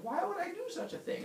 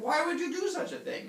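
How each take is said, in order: First: High, squeaky disbelief; appalled question. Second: High, louder comic outrage; appalled accusation. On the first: Heracles learning what he did, high appalled cry. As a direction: wail it in comic bewilderment. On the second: Villagers confronting Heracles, high scandalized demand. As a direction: throw the question back, leaning on "you". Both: Retold or imitated.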